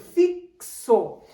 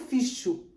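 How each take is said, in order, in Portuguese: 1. A consoante do meio tem som de 'ks'. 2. A consoante do meio tem som de 'sh'. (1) "ele tem som de C e S" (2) "Eu não digo ficho"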